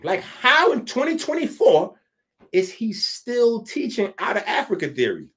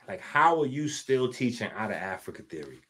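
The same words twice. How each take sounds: First: Raised, higher exasperated challenge; exasperated demand. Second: Said in the usual way. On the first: Acted. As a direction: push him for an answer, fed up. Asks the same question again, louder.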